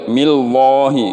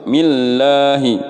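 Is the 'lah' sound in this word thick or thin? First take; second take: thick; thin. First: The 'lah' sound is thick and heavy. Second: The 'lah' sound is thin and light. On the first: The speaker calls it wrong. "Nggak boleh millahi" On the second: The speaker calls it right. "Harus millahi"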